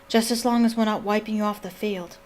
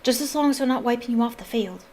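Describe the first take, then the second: First: The line is read in a boyish character voice. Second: The line is read in a girlish character voice. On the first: The speaker calls it wrong. "That sounds like Ron" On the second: The speaker calls it right. "with a more Hermione-ish voice"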